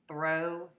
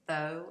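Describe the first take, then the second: First: The r sound after th is kept. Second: The r sound after th is dropped. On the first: "instead of" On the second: "consonant cluster reductions"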